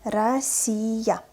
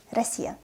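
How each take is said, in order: First: "Россия" stretched syllable by syllable; slow, articulated reading. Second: Quick, softer "Россия"; fast, natural reading. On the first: Teacher models for learners, "Россия" read slowly. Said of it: "what is articulated pronunciation". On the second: Teacher reads as a native, "Россия" said fast. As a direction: say "Россия" fast, first vowel an A. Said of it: "I will read this word fast". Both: Shown as a demonstration.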